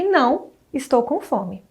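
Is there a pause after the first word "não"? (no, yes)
yes. There is a pause after "não". The speaker is hungry. "Há primeiro uma negação, depois uma pausa"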